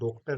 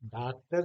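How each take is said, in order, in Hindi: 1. पहला स्वर पूरा गोल o है। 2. पहला स्वर पूरा खुला aa है। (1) "या इसको डॉक्टर नहीं कह रहे हैं" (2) "डॉक्टर नहीं कह रहा हूं"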